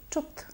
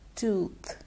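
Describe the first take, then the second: First: The vowel is a short uh sound. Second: The vowel is a long oo sound. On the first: The speaker calls it wrong. "most people tend to say tooth" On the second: The speaker calls it right. "is pronounced tooth"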